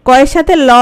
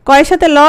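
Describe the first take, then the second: No difference in how they are said.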